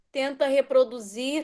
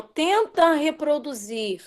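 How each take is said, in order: First: Said in the usual way. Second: Tenta stressed, the phrase said slowly. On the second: Shown as a demonstration. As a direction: lean hard on Tenta, slow delivery. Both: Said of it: "Só tenta".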